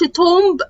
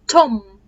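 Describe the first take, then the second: First: A B sound is heard at the end. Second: No B sound is heard at the end. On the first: The speaker calls it wrong. "انا ما بقولش" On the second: The speaker calls it right. "البي ما بنطقهاش"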